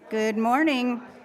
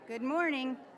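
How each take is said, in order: First: It is said loudly in a projecting voice. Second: It is said at a normal, quieter volume.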